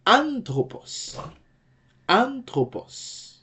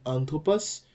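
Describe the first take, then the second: First: Anthropos with a high, drawn-out first syllable, then falling; stress on first syllable. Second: Said in the usual way. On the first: Shown as a demonstration. Teacher demonstrating the acute accent, anthropos slow and high on the first syllable. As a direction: slowly punch the start of anthropos high. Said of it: "the same thing in anthropos". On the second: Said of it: "And the same thing in anthropos".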